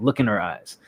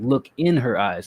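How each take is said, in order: First: Look and in are rushed together into one word. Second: Look and in are said as separate words. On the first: The speaker calls it wrong. "instead of" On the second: The speaker calls it right. "say it properly so that it's actually two words"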